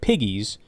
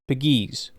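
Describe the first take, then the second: First: The stress is on the first syllable. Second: The stress is on the second syllable. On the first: "It's like Piggies" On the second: "but you put the emphasis on the other side"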